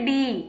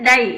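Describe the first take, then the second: First: The vowel sounds like 'ee'. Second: The vowel sounds like 'eye'. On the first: The speaker calls it right. "ஆனா இங்க டி" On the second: The speaker calls it wrong. "டைன்னு படிக்க கூடாது"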